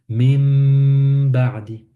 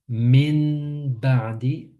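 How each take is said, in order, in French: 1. La nasale avant le b est un m nasalisé. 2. La nasale avant le b est un n. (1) "le noun devient mim pour faciliter la prononciation" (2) "si on disait min ba'di, c'est lourd un peu"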